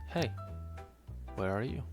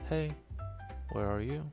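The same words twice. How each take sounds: The two takes are said the same way.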